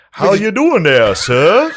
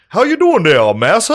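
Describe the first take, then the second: First: High, slow, loud put-on greeting; mock reenactor greeting. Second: High, loud put-on greeting; mock reenactor greeting. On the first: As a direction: ham up a cheerful plantation greeting. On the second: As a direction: ham up the slave reenactor's hello.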